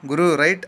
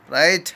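First: "Guru, right" called out louder with a rise on Guru; a cleaner's casual signal call; call to the driver. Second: "right" snapped out loud and short with a rise; whip-crack call. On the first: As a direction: sing out "Guru, right" as a quick go-ahead. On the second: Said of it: "కొరడా జులిపించినట్టు". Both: Acted.

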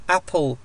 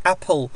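The two takes are said the same way.

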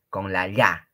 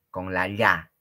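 Both takes have the same delivery.

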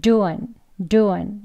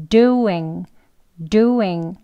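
First: Doing with the ending relaxed, duan; weak ending doing. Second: Doing with DO hit firmly; stress on first syllable. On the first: Teacher easing off the end of doing. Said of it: "끝은 약하게 힘을 빼시고". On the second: Teacher stressing the front of doing. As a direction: punch the do in doing. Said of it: "강세 여기 앞에 있습니다". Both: Shown as a demonstration.

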